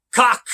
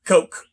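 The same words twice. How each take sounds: First: Cock said as kok, short o; first guess at Koch. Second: Coke said as koke, long o; corrected pronunciation. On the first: Reading the company name aloud, unsure: Cock with a short o. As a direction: try Cock, the short vowel. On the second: Correcting his reading of the company name: Coke with a long o. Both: Shown as a demonstration. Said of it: "Or is it Coke?".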